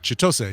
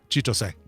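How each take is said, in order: First: One syllable is stressed more than the others. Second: All syllables get the same, even stress. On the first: The speaker calls it wrong. "as opposed to" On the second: The speaker calls it right. "you don't really put emphasis on any syllable"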